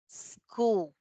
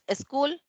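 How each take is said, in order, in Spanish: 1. La palabra empieza directamente con la S. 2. Un sonido de vocal va antes de la S. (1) "Empezamos con S" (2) "Nunca decimos"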